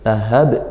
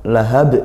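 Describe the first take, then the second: Both takes have the same delivery.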